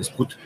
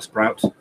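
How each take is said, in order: First: The name is pronounced with French sounds. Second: The name is pronounced with English sounds. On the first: "Parce que sinon, ça fait" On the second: "je le prononce à l'anglaise pour le coup"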